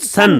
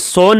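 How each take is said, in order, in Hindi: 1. स्वर एक छोटी 'uh' ध्वनि है। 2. स्वर एक लंबी 'oh' ध्वनि है। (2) "सोन नहीं"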